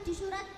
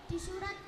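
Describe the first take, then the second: Both takes have the same delivery.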